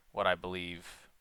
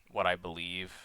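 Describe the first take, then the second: No difference in how they are said.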